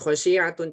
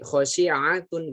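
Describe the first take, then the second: First: The sh and ain sounds slide together. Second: The sh and ain sounds are kept apart. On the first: The speaker calls it wrong. "Jangan khosyi'atun" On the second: The speaker calls it right. "khosyi'a sendiri-sendiri"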